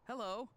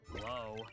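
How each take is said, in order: First: It sounds happy and cheerful. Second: It sounds frustrated and annoyed.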